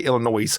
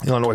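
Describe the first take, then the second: First: The final S is sounded. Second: The final S is silent.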